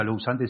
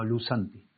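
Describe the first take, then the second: First: "lou santi" with an o-u glide in lou; as-written mispronunciation. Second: "lu santi" with a single oo vowel in lu; correct Greek pronunciation. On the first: Teacher showing how the Greek is not said, spelled-out pronunciation. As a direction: say "lou santi" letter by letter, sounding the O. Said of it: "no se pronuncia lou santi". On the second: Teacher giving the Greek word as pronounced, pure oo vowel. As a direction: say "lu santi", no O sound before the U. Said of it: "no se pronuncia lou santi, sino lu santi". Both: Shown as a demonstration.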